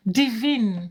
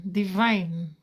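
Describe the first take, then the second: First: "Divine" said the French way, dee-VEEN; French pronunciation. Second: "divine" said the English way, dih-VINE; English pronunciation. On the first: Host greeting Divine in French, "Divine" as dee-VEEN. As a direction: say "Divine" with both vowels as ee. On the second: Host greeting Divine in English, "divine" as dih-VINE. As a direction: say "divine" rhyming with wine. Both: Real, not acted. Says name in French, then English.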